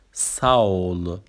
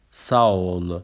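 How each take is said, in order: First: ساول drawn out slowly as Turkish sağol; slow model word. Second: ساول said at everyday speed as sağol; normal-speed repeat. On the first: Teacher models Turkish sağol slowly for learners. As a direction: stretch ساول out so learners catch it. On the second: Teacher repeats sağol at normal speed after slow model. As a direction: say ساول once more at natural pace. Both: Shown as a demonstration. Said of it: "اصطلاحاتمون رو به ترتیب بخونیم".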